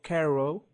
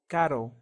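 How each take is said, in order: First: The r is pronounced like an English r. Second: The r is a quick Spanish tap. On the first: The speaker calls it wrong. "It's not pero or caro" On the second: The speaker calls it right. "or caro, caro"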